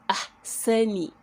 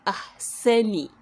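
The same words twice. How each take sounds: Both takes have the same delivery.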